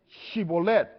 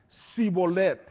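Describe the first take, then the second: First: The word begins with an sh sound. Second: The word begins with an s sound. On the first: This is the password form the guards demanded. The speaker calls it right. "ahora pues di Shibolet" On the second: This reveals the speaker as a fugitive from Ephraim. The speaker calls it wrong. "no podía pronunciarlo correctamente"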